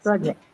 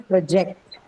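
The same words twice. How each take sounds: First: "Project." stressed on the first syllable, PRO-ject; noun stress. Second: "project" stressed on the second syllable, pro-JECT; verb stress. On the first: Teacher showing students the noun, PRO-ject stress. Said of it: "when the stress is on the first syllable". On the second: Teacher showing students the verb, pro-JECT stress. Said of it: "But if it is used as a verb". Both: Shown as a demonstration.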